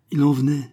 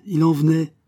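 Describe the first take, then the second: First: Building wonder. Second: Higher and louder on the repeat; growing wonder. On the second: Narrator marvelling at the arriving thrushes, swelling excitement. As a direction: let the wonder swell as more birds come. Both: A narrator's reading.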